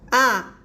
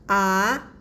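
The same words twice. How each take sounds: First: The pitch falls sharply from high to low. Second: The pitch rises from middle to high. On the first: "we will just uh, do go down" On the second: "it's a rising tone"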